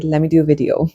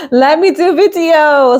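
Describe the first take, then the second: First: Said in the usual way. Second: High laughing repeat, louder, stressing me. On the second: Shown as a demonstration. Vlogger laughing as she repeats her own line. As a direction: laugh it back at yourself, pitched up.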